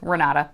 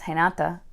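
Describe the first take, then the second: First: The name is said with a Spanish R sound. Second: The name is said with a Portuguese R sound. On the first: "because in Spanish, it would be an R sound" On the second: "if it's in Portuguese"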